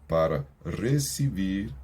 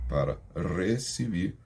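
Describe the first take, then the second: No difference in how they are said.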